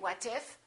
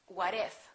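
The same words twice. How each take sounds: First: The T is a clear T, words separate. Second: The T is a fast D, words linked. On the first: The speaker calls it wrong. "we don't say what if" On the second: The speaker calls it right. "it becomes a fast D"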